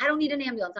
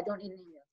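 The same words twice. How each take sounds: First: Raised pitch, insisting "I don't need an ambulance"; firm, pushing "need" up high; emphatic protest. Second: Soft, trailing "I don't need an ambulance"; quiet. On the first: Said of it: "repeated protest, first take". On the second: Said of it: "repeated protest, second take". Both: Retold or imitated.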